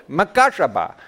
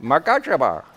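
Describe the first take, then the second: First: Makashaba in an exaggerated Indian accent. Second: Makashaba in a light Indian accent. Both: Shown as a demonstration. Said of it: "say it with an Indian accent".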